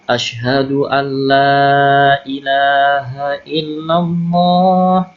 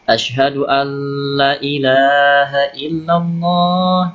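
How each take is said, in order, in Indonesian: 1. Vokal pada 'la' dibaca panjang. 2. Vokal pada 'la' pendek. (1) "Jadi la-nya dibaca panjang" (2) "Jadi la-nya dibaca pendek"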